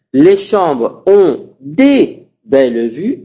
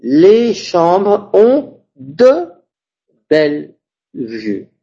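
First: Des said slowly with the plural s before belles; slow, deliberate wrong sentence, des belles vues; wrong version. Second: De said slowly and stretched, rising, then belle vue falling; slow model sentence, weight on de; correct version. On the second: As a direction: draw out de before belle vue. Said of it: "Entonces voy a decir". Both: Shown as a demonstration.

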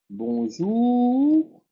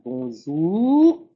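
First: Bonjour, ou from the throat, rising; French ou demo. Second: Bonjour, ou from the throat, no lip push; throaty ou. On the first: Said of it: "Vous entendez". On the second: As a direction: open mouth, ou from the throat. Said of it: "pas besoin de faire". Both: Shown as a demonstration.

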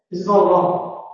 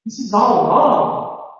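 First: All stressed, falling end; sure falling statement. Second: All lifted, slow, rising end; uncertain rising statement. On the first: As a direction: say it flatly certain. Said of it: "I know that". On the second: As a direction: state it doubtfully, slowly. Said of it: "declaratives showing uncertainty". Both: Shown as a demonstration.

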